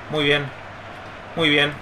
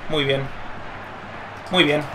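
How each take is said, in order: Both takes have the same delivery.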